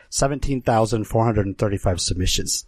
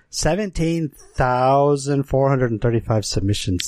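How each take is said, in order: First: Said in the usual way. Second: "Seventeen thousand" drawn out for weight; emphatic repetition. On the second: Real, not acted. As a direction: stretch "Seventeen thousand" slowly so the figure sinks in. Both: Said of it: "Just think about that".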